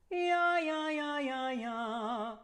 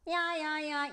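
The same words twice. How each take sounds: First: Balanced singing; sung yeah scale. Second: Sung, squeezed throat, higher; sung, pinched tight yeah. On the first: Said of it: "Let me do it first". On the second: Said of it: "You see how tight that is". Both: Shown as a demonstration.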